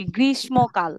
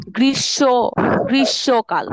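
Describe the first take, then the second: First: গ্রীষ্মকাল with a plain s sound, grismokal; গ্রীষ্মকাল said as grismokal, the wrong way; wrong pronunciation. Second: গ্রীষ্মকাল with the sh sound, grishokal, a little louder; correct pronunciation. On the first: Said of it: "গ্রীষ্ম বলবো না". (ভুল উচ্চারণে গ্রীষ্মকাল, স দিয়ে) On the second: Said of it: "স এর মতো উচ্চারণ হবে". (গ্রীষ্মকাল শ-এর মতো উচ্চারণে, জোরে) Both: Shown as a demonstration.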